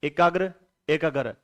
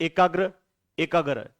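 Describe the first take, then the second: No difference in how they are said.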